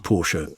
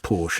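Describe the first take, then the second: First: It is pronounced the German way. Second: It is pronounced the British way. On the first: This is how it is said in Germany. "In Germany, it's Porsche" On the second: This is how it is said in Britain. "but here, Porsche"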